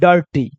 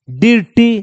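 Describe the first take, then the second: First: The first vowel sounds like 'ur'. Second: The first vowel sounds like 'ee'. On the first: The speaker calls it right. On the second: The speaker calls it wrong.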